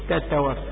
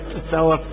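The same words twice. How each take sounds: First: The t sounds are firm stops without running breath. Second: The t sounds are released with extra running breath. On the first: The speaker calls it right. "قل فتنة تتوفى" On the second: The speaker calls it wrong. "ولا تتوفى"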